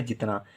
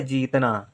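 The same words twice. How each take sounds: First: "जितना" with a quick, short i. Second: "जीतना" with a long, held ee. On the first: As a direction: cut the first vowel of "जितना" short. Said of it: "हमें लिखना है जितना". ("जितना" में छोटी इ, कम देर की) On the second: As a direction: stretch the first vowel of "जीतना". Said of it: "बड़ी ई की मात्रा लिख दें". ("जीतना" में ई को लंबा खींचकर) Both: Shown as a demonstration.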